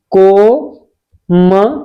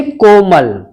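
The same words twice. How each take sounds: First: Komal very slowly, as "ko... ma... la" with long pauses; syllable by syllable. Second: Said in the usual way. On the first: Shown as a demonstration. Teacher spelling out for students, very slow broken-up Komal. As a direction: draw out each syllable of Komal separately. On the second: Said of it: "छोटे ओ को पढ़ते हैं".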